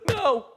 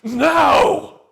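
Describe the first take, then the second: First: A plain, simple refusal. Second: A repulsed, contemptuous refusal.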